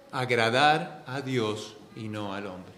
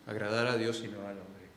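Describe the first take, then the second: First: Slow, deliberate preaching of the key line; slow emphatic statement. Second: Quiet, lower repeat of the line; soft echo. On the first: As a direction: lean on agradar a Dios, slow and weighty. Preacher states key point slowly. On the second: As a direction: let agradar a Dios y no al hombre fall away softly. Preacher echoes the point softer. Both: Acted.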